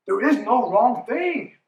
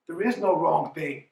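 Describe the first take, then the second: First: Slow and firm, "There IS no wrong thing"; stress on is. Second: Said in the usual way. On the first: Shown as a demonstration. Coach repeating to a doubting player, stressing "is". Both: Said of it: "repeated with emphasis".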